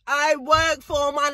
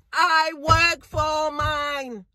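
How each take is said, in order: First: Said in the usual way. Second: Slow with "work" leaned on hard; slow proud insistence; stress on work. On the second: Acted. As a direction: drag it out, punch "work".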